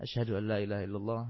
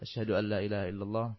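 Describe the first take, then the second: The two takes are said the same way.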